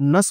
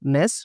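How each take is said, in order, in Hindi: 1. प्रत्यय में एक छोटा, हल्का स्वर है। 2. प्रत्यय में पूरा 'e' स्वर है। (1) "हम लोग नस बोलते हैं" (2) "नेस नहीं बोलते"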